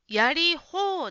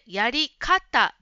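First: The last part is read as 'hou'. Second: The last part is read as 'kata'. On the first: The speaker calls it wrong. "やり方ではなくて" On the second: The speaker calls it right. "やり方ですね。"

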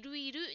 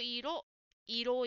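First: The second syllable sounds like ru. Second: The second syllable is a clear, rounded ro. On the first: The speaker calls it wrong. "やっぱりいるいるに聞こえます。" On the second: The speaker calls it right. "もう少しゆっくりろをしっかり言ってみるとどうでしょうか。唇を動かして発音してみましょう。"

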